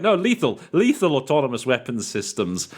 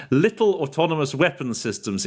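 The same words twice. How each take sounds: First: "lethal" said firmly and clearly; corrected to lethal. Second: Laughing slip. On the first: Shown as a demonstration. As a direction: fix the slip, stressing "lethal". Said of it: "that doesn't sound right". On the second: Retold or imitated. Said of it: "it came out as, uh, from my end".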